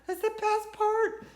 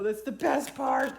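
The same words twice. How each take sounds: First: Repeated higher, slow and loud; excited. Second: Said in the usual way. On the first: Real, not acted. Sewer telling viewers about flow, repeated higher. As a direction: lift it up with delight. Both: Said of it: "I love sewing".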